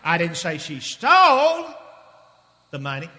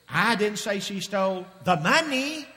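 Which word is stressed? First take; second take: stole; money. First: The word stole carries the main stress. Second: The word money carries the main stress. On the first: She did something else with the money. "What did she do with the money?" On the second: She stole something other than money. "if she didn't steal the money, what did she steal?"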